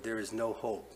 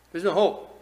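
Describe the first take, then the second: First: Said in the usual way. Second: High, loud cry of "There's no hope."; loud mock despair. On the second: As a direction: shout "There's no hope." like a man giving up. Same quote much louder.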